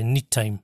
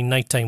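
First: "neat time" for nighttime, with a long ee; dialect pronunciation. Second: Said in the usual way. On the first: Shown as a demonstration. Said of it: "we say neat time". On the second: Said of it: "We don't say nighttime".

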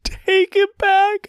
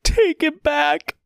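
First: Slow, very high desperate cry. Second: Slow, high tearful plea; weeping wish; sobbing. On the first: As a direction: push the repeat harder, near wailing. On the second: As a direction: stretch it out through tears. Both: A narrator's reading. Sobbing apology to the child.

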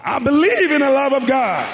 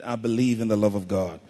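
First: High, very loud shouted declaration; full shout. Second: Firm, louder, low-pitched declaration; like you mean it. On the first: Preacher leading congregation in declaring faith, shouting it out loud. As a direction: shout it out at the top of your voice. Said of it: "Shout it out loud now". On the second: Preacher showing congregation how to declare belief, like you mean it. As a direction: say it with conviction, pressing each word. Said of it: "say it like you mean it". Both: Shown as a demonstration.

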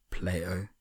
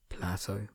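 First: Plato said PLAY-toe, long a. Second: Plato said PLA-toe, short a as in cat. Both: Shown as a demonstration.

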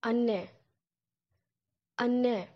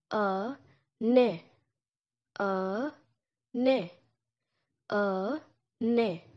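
First: "Anne" with both syllables clear, ah-neh; Turkish anne. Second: "A, ne" said as two separate syllables with a pause; slow, spaced-out "A, ne" for learners; syllables broken apart; split into syllables. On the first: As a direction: say "Anne" as ah-neh, double n held. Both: Shown as a demonstration. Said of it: "mom in Turkish sounds like this".

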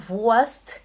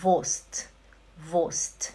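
First: Wurst slowed with a rising tune and the R sounded, voarst; drawn-out Wurst with the R pronounced; mock-wrong Wurst, R sounded, rising; wrong pronunciation. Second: Wurst said short and falling, vost, no R; clipped Wurst with a silent R; Wurst, R dropped, falling tune; correct pronunciation. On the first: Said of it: "Não Wurst". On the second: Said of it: "é". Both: Shown as a demonstration.

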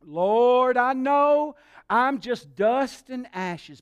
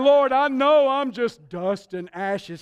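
First: Drawn-out, hammed-up humble plea; laying it on thick. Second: Loud, slow mock humility; amused, hammed-up plea with laughter; laying it on thick. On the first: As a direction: stretch out "Lord" like a supplicant. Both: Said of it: "He was laying it on thick".

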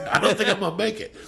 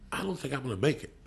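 First: Higher and louder, laughing through nerves; a starstruck fan cracking up; overwhelmed laugh. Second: Said in the usual way. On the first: Retold or imitated. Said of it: "look, I'm getting emotional". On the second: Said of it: "I go".

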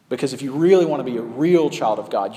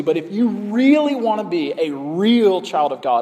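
First: Said in the usual way. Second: Quoting false teachers. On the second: Retold or imitated. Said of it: "and they say".

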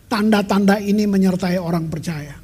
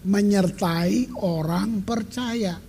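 First: Said in the usual way. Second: Slow, deliberate re-reading of "Menyertai orang percaya"; "Menyertai orang percaya" read very slowly, word by word; careful reading. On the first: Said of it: "Markus enam belas ayat tujuh belas". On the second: Shown as a demonstration. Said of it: "Baca baik-baik".

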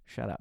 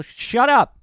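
First: Said in the usual way. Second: Put-on Eastern Bloc accent yelled shut up, much higher and louder; furious shout. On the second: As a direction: blow up and bellow shut up in the accent.

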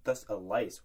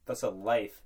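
First: LICE said with a final S sound for "life"; slip of tongue. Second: LIFE said with a final F sound; corrected word. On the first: Host fumbling the phrase, "lice" ending on an S. Slip, repeated before correcting it. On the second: Host fixing his own slip, "life" ending on an F. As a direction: say "life" cleanly, ending in F, not S. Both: Real, not acted.

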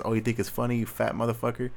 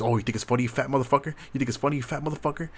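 First: Said in the usual way. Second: Cousin's taunt, hammed up, rising and faster at the end; imitating a cousin mocking him for laughing at a video game. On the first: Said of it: "I put in quotations". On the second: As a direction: jeer it like the cousin did, mildly heated. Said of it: "He goes".

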